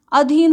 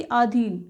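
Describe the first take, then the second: First: Said in the usual way. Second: आधीन with long opening "aa"; common mispronunciation. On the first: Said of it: "ना कि आधीन". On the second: Shown as a demonstration. Teacher quoting the common mistake, आधीन with long first aa. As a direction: stretch the first vowel, "aa-dheen" for आधीन. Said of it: "प्राय हम बोलते हैं".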